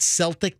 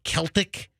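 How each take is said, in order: First: The word begins with an S sound. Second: The word begins with a K sound. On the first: "not Celtic" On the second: "is pronounced like a K"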